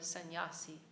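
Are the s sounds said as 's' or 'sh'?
s. It uses Vrindavan-style 's' sounds.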